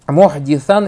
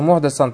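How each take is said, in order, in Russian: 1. Гласный после звука д — 'i'. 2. Гласный после звука д — 'a'. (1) "Если ты скажешь «мохдис», кесра стоит" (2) "Если же скажешь через «фатху»"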